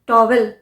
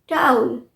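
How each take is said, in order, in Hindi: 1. इसमें दो साफ़ अक्षर हैं, जैसे 'tow-vel'। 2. यह घुला हुआ है, जैसे 'towl', 'ow' के साथ। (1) "टॉवेल नहीं है"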